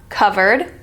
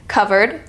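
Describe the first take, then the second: Both takes have the same delivery.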